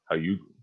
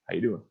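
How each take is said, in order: First: It is said flirtatiously, imitating Joey from Friends. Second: It is said in a plain, ordinary tone.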